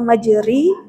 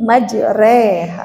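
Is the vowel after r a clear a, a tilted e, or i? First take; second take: i; tilted e. First: The vowel after r is a full i. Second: The vowel after r leans from a toward i. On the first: The speaker calls it wrong. "atau majuri" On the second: The speaker calls it right. "fathah condong ke kasroh eh, dua pertiganya"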